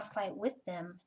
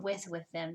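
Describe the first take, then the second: First: Said in the usual way. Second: "with" said twice, pointedly, the second "with them" lower; stress on WITH. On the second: Shown as a demonstration. Reader separating two senses of fighting, stress on "with". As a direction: lean on "with", repeating it for contrast. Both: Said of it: "There's a difference".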